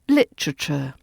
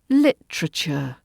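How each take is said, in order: First: A middle vowel is dropped, making a T R cluster. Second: A middle vowel is dropped, making a T R cluster.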